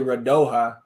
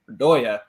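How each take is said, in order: First: The middle consonant sounds like the j in jam. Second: The middle consonant sounds like the y in yes. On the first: This is the speaker's own habitual way of saying it. The speaker calls it wrong. "I keep wanting to say Radoja" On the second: This is how the broadcast commentator said it. The speaker calls it right. "Adrian Healy was pronouncing it Radoya"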